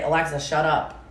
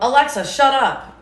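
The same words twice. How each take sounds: First: Said in the usual way. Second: Higher, louder bark at the speaker; shouted command. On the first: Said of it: "just say". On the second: Shown as a demonstration. Mother showing how to silence Alexa, loud barked command. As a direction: snap it at Alexa like you mean it. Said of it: "you can tell Alexa".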